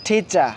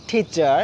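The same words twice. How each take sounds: First: "টিচার" with puffed ঠ and no final R; aspirated T, silent R. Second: Put-on "টিচার" the old way, final R sounded; old pronunciation. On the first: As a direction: say "টিচার" as thi-cha, dropping the R. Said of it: "আর উচ্চারিত হয় নাই". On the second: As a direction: say "টিচার" with its ending R pronounced. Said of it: "আগে একদম উচ্চারণ করতাম". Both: Shown as a demonstration.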